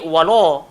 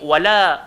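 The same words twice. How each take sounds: First: The 'la' sound is heavy and full-mouthed. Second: The 'la' sound is light and thin. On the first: The speaker calls it wrong. "tak boleh bunyi wala" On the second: The speaker calls it right. "dia kena bunyi wala"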